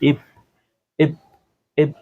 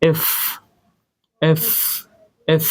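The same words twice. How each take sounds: First: The f is made with both lips. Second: The f is made with teeth on the lip. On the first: The speaker calls it wrong. "এটাকে আমরা এফ বলি" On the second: The speaker calls it right. "But এটার উচ্চারণ হবে এফ এফ এফ"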